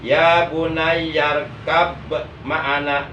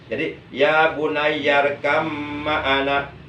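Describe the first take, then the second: First: A clear b sound is heard before ma'ana. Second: The b becomes m, merging into ma'ana. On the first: The speaker calls it wrong. "kalau dibaca begitu salah" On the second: The speaker calls it right. "ba sukunnya diidghamkan, dimasukkan ke dalam huruf mim"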